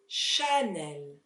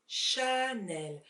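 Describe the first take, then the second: First: The first vowel is a clear, full A. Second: The same.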